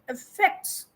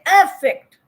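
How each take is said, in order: First: The stress is on the second syllable. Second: The stress is on the first syllable. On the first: The speaker calls it right. "I'm putting the stress on F F E C T S" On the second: The speaker calls it wrong. "I don't say affect"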